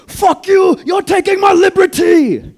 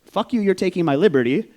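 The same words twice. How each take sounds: First: Very high, full-volume screaming outburst; freaked-out scream. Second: Raised, higher voice, short of screaming; mock yell, half the original force; retold outburst. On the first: Retold or imitated. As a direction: scream it wildly, stretching out the words. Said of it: "The Vietnamese guy's freaking out". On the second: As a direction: recount the yell loudly, in quick replay. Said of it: "what they heard outside was".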